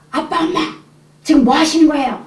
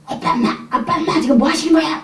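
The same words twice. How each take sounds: First: High, pleading cry at parents; teenage son bursting out of his room, shouting high; son's shout. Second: High, pleading cry at parents; son's shout. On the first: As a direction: call out to the parents, upset. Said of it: "큰 소리가 막 나갔는데". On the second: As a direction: cry out at them, upset. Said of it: "혈기가 팍 나가지고 문이 쾅 열고". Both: Retold or imitated.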